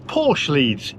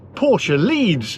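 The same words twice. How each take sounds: First: Porsche is pronounced in a plain, unpretentious way. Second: Porsche is pronounced in a posh, pretentious way. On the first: The speaker is not being pretentious. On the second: The speaker is being pretentious.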